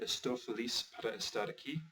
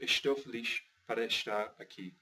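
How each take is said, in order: First: It has a Brazilian accent with s sounds. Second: It has a European accent with sh sounds. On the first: This is how it is said in Brazil. "in Brazil, you would say" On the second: This is how it is said in Portugal. "in Portugal, you would say"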